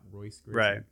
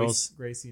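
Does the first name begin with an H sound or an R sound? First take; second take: R sound; H sound. First: The first name begins with an R sound. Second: The first name begins with an H sound. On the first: The speaker calls it wrong. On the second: The speaker calls it right. "The R is like H sound"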